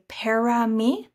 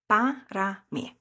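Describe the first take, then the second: First: The first vowel sounds like an E. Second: The first vowel is a short A. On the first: The speaker calls it wrong. "some people will say para mí" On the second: The speaker calls it right. "that A, that is nice and short"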